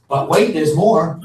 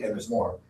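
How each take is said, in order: First: Slow, loud infomercial pitchman; sleazy salesman. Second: Said in the usual way. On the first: Acted. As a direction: hype it like a late-night TV ad. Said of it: "Oh, I can't wait".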